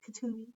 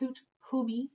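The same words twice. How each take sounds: First: The name is said fast. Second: The name is said slowly.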